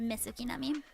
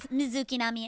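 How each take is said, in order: First: The first word has a hissing s sound. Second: The first word has a buzzing z sound. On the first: "spelled out M I S S" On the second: "go with Miz"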